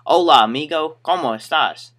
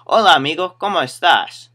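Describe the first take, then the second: First: Loud mock country-accented Spanish. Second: Put-on high, loud Spanish greeting with a light country accent; first go at a country-accented Spanish greeting. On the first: Customer greeting store worker, mock country-accented Spanish. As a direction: lay a country twang on the Spanish. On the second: Customer greeting store worker in Spanish, hint of country accent. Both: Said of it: "Country accent, too, so it's more like".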